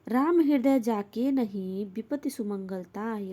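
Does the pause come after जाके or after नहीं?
after नहीं. The pause comes after the word नहीं. Those without Ram in their heart meet misfortune. "पूर्वार्ध का अर्थ है जिनके हृदय में राम नहीं है उन्हें विपत्ति आती है"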